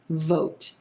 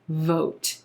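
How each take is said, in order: First: The final T is softly released. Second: The final T is softly released.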